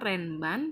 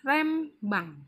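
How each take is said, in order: First: The sound before the b is an n. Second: The sound before the b is an m. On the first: "Tulisannya Renban" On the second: "tapi dibacanya Rembang"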